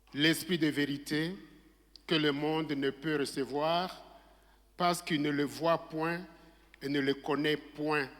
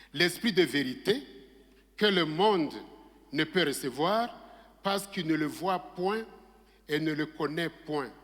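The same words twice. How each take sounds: Both takes have the same delivery.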